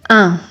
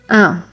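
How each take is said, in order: First: The vowel is nasal. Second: The same.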